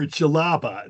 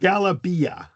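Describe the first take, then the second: First: The word begins with a J sound. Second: The word begins with a hard G sound. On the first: This is the North African form of the word. "Jalaba is D J. This is more for North Africa" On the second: This is the Egyptian form of the word. "the G is hard in E- in Egyptian Arabic"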